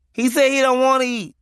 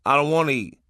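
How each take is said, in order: First: Put-on high, louder kid voice relaying the message; child messenger. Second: Said in the usual way. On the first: Little kid relays daddy's refusal to mom, high child voice. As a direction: pass it on like a small child would.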